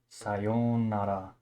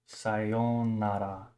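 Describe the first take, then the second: No difference in how they are said.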